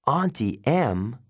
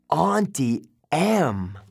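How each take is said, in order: First: Said in the usual way. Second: Slow, drawn-out realization; horrified recognition; dawning horror. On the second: A narrator's reading.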